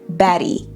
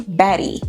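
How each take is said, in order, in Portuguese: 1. O T do meio é um flap rápido, parecido com um d. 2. O T do meio é um flap rápido, parecido com um d.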